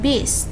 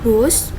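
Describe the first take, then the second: First: The vowel is an i sound. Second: The vowel is a u sound. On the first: The speaker calls it wrong. "bukan bis" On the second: The speaker calls it right. "yang benar bus"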